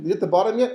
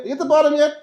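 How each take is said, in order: First: Said in the usual way. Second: Calling down. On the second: Retold or imitated. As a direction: shout it down into the well. Brothers calling down the pit.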